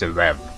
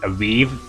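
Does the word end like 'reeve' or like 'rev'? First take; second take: rev; reeve. First: The word ends like 'rev'. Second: The word ends like 'reeve'. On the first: The speaker calls it right. "apparently it's" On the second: The speaker calls it wrong. "I used to say"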